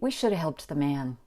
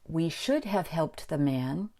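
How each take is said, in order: First: 'Should have' is reduced to 'shoulda'. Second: 'Should have' is said fully as two words. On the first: "These reductions are just a result of speaking quickly" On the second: "we can say"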